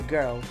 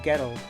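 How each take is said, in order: First: The R is plain, not tapped. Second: The R is tapped with the tongue. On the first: "as opposed to girl" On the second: "somewhere like Glasgow, say, they would say like girl"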